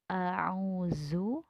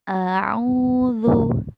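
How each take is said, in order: First: The consonant is a plain z sound. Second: The consonant is a soft th sound. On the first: The speaker calls it wrong. "tidak a'uzu" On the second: The speaker calls it right. "tipis. Lidah digigit sedikit"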